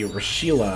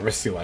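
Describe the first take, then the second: First: The middle consonant is an 'sh' sound. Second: The middle consonant is an 's' sound. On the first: The speaker calls it wrong. "not Rashila" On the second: The speaker calls it right. "Rasila, not Rashila"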